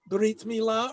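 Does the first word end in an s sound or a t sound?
t sound. The first word ends with a t sound.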